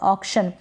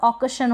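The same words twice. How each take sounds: First: The k sound is short and clipped. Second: The k sound is full with a vowel. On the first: The speaker calls it right. "सी को यहाँ पर आधा क pronounce करेंगे" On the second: The speaker calls it wrong. "अगर पूरा होगा तो ऑक्शन होगा तो गलत हो जाएगा"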